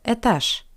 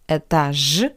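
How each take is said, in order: First: The final consonant is a voiceless sh sound. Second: The final consonant is a voiced zh sound. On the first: The speaker calls it right. "but etage" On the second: The speaker calls it wrong. "Not etage"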